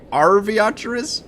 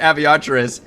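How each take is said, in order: First: The name starts with an R sound. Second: The name starts without an R sound. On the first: The speaker calls it right. "It has a fucking R at the start" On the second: The speaker calls it wrong. "I've been saying it Aviatris"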